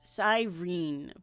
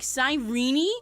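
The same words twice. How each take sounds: First: The name is read the way it is spelled. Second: The name is said in its official pronunciation. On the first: "with her name spelled like this" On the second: "apparently it's pronounced like Cyrene, which is fucking stupid"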